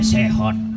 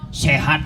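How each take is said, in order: First: The last vowel is an 'o' sound. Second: The last vowel is an open 'a' sound.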